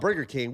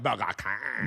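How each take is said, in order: First: It is said in the speaker's ordinary accent. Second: It is said in an exaggerated put-on accent. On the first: "We didn't call it Burger King" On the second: "We called it Burger King"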